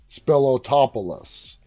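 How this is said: The name is said with American English pronunciation. The speaker calls it wrong. "using, you know, my American accent"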